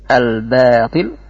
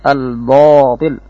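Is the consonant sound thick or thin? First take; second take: thin; thick. First: The consonants are pronounced thin and light. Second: The consonants are pronounced thick and heavy. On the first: The speaker calls it right. "seharusnya dibaca tipis" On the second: The speaker calls it wrong. "tapi dibaca dengan tebal"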